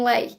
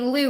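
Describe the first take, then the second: First: The word sounds like 'lay'. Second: The word sounds like 'loo'. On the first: The speaker calls it right. "I think that's how you say it anyway" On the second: The speaker calls it wrong. "I think I was saying Lou, and obviously it's not Lou"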